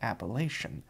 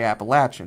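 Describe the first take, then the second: First: It uses the standard American pronunciation. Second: It uses the local mountain pronunciation. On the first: The speaker is pretentious and seeking prestige. "If you're pretentious and trying to do standard American English" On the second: The speaker is from the mountains. "if you're from the Appalachian Mountains, you say Appalachian"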